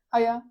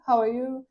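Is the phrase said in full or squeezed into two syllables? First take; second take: squeezed; full. First: The phrase is squeezed into two syllables. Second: All three words are pronounced separately.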